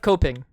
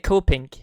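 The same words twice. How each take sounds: First: The final G is swallowed, not sounded. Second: The final G is clearly sounded. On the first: "instead of" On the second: "Why do I say the the G in the end?"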